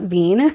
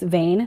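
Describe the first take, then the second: First: The name has the vowel of 'seen'. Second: The name has the vowel of 'lane'. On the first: The speaker calls it wrong. "not Veen. I have been saying it wrong" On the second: The speaker calls it right. "I did learn that it's Vane"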